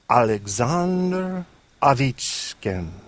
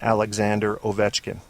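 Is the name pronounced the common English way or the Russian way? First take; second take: Russian; common English. First: The name is said the Russian way. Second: The name is said the common English way. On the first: The speaker calls it right. "This is how they pronounce his name in Russia" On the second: The speaker calls it wrong. "Sounds right, right? That's what everybody says"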